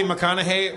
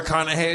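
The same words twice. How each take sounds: First: Said in the usual way. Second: McConaughey said as "Rickonahey"; mimicked mispronunciation. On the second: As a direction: turn the start of McConaughey into "Rick". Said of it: "as you call them".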